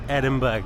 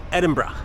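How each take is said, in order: First: Edinburgh said as Edin-burg, ending on a hard g; the common tourist mistake, Edinburgh as Edin-burg with a clear final g; wrong pronunciation. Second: Edinburgh the local way, ending in a light bruh; correct pronunciation. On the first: Showing viewers how many people say it, Edin-burg with a hard g. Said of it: "so many people say Edinburgh". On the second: Correcting the mistake for viewers, Edin-bruh with no final g. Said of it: "no, Edinburgh". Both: Shown as a demonstration.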